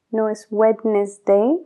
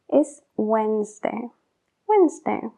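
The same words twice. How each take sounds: First: Wednesday with the D sounded, a rising end; spelled-out Wednesday. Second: Wednesday as wenzday, no D; correct Wednesday. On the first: Teacher showing the spelled Wednesday as wrong. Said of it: "como se escribe". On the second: Teacher giving the right Wednesday after the wrong one. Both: Shown as a demonstration.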